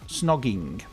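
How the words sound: The word is said in an English accent. The speaker calls it right. "we say it with an English accent"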